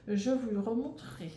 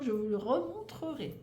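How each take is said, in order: First: "remontrerai" run together, losing a syllable; fumbled word. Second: "remontrerai" in separate syllables, re-mon-tre-rai, pitched higher; higher, deliberate redo of "remontrerai"; corrected articulation. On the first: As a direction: stumble quickly through the end of "remontrerai". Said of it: "je parle vite et, euh, et du coup, je bafouille". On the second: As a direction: carefully sound every syllable of "remontrerai". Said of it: "du coup, je bafouille". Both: Real, not acted.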